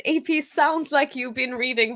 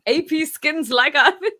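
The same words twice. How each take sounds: First: Said in the usual way. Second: Loud mock read-aloud, "skins" said as written; imitating typo reading. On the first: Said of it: "he obviously said". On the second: Viewer teasing the host for reading typos as written, loud mock reading. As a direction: tease him by loudly reading the typo "skins". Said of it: "He reads them".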